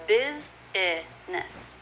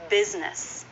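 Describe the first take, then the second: First: Very slow "Business", biz-ih-ness; extra middle syllable. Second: "Business" as BIZ-ness; two syllables. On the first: Teacher showing learners' mistake, "Business" slowly with three syllables. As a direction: sound out "Business" in three separate parts. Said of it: "an extra syllable in the middle". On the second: Teacher modelling the actual pronunciation, "Business" as biz-ness. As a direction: say "Business" with no vowel after the z. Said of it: "That is a two-syllable word". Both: Shown as a demonstration.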